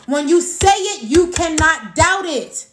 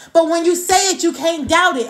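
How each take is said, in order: First: Cannot stretched slow and firm; repeating the key line with weight; slow emphatic repeat. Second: Said in the usual way. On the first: Shown as a demonstration. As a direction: lean hard on cannot, slowly. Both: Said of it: "I'm gonna say that part again".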